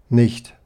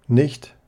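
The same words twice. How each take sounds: No difference in how they are said.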